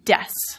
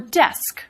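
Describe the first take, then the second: First: The word ends without a K sound. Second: The word ends with a K sound.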